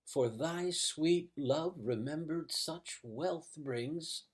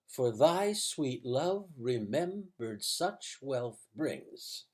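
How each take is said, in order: First: Nearly every word gets a slow, heavy stress. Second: Stress falls evenly on every second syllable. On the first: The speaker calls it right. "the only naturally human way to say it" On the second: The speaker calls it wrong. "If you said it iambically"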